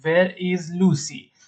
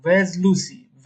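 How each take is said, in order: First: Slow demo with "Where is" as two words; full form. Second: Slow demo with "Where's" as one syllable; contracted form. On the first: Teacher models asking for Lucy, slow uncontracted "Where is". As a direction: say "Where is" slowly, sounding "is" separately. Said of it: "به جای اینکه بگیم where is". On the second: Teacher models asking for Lucy, slow contracted "Where's". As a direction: say "Where's" slowly, s joined on. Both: Shown as a demonstration.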